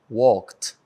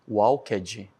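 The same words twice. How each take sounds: First: The -ed ending is soft, with no added vowel. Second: The -ed ending is heavy, with a sounded vowel. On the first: The speaker calls it right. "Viu que é bem suave" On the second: The speaker calls it wrong. "não é para falar assim, ó"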